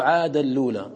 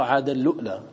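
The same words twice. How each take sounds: First: عاد اللولى with a long u and no hamza; Nafi's reading. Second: عاد اللؤلى with a hamza stop after the u; short u cut by a glottal stop in عاد اللؤلى; Qalun's reading. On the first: Teacher showing Nafi's reading, smooth long u in عاد اللولى. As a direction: merge into the lam of عاد اللولى, long plain u. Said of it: "يقرأ". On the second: Teacher showing Qalun's reading, hamza sounded in عاد اللؤلى. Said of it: "أن قالون يقرأ". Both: Shown as a demonstration.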